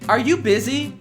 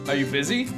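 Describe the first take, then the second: First: It is said in an exaggerated, dramatic way. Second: It is said in a fairly plain way.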